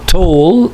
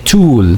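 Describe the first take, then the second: First: The vowel is not an oo sound. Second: The vowel is a long oo sound.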